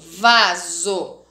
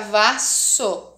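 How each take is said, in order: First: The middle consonant is a buzzing z sound. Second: The middle consonant is a hissing s sound. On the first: "se eu quero que faça o som de Z, aí eu vou usar um S só" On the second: "Se eu colocar dois S's, aí vai ficar vasso"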